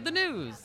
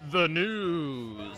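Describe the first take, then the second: First: It is said in a plain everyday voice. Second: It is said in a deep announcer voice. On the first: "he could have said, you know" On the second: "And he's like, and coming up"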